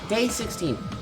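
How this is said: It is read in a put-on character voice. The speaker calls it right.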